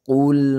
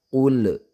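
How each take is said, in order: First: The final L is held without any bounce. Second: The final L ends with a bouncing echo. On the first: The speaker calls it right. "tidak boleh dipantulkan. Kita coba ya" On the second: The speaker calls it wrong. "dikolkolahkan huruf lamnya ... padahal itu salah"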